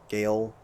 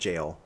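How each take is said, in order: First: The word begins with a hard G sound. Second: The word begins with a J sound. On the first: The speaker calls it wrong. "it looks like it's pronounced like would be pronounced as" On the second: The speaker calls it right. "but it's pronounced jail"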